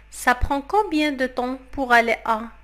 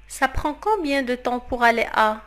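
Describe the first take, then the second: No difference in how they are said.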